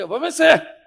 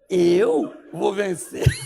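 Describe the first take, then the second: First: It sounds firm and confident. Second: It sounds hesitant and unsure. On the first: It is a firm declaration. "uma afirmação na noite anterior" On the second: The conviction has turned into doubt. "você já está assim, ó ... se torna dúvida"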